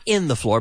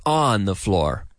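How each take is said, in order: First: "in" pushed as the marked wrong word; stress on in, the wrong choice. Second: "on" stressed, lower and slower; stress on on, the right choice. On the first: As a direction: lean on "in" to show the mistake. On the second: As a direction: land firmly on "on". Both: Shown as a demonstration. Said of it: "Notice we say on the floor".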